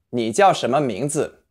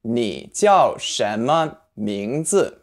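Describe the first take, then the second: First: Said in the usual way. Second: 你叫什么名字 said very slowly, every syllable drawn out; very slow model. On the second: Shown as a demonstration. Teacher modelling the question slowly for learners. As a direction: lay out each syllable slowly. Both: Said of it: "To say, "What's your name?".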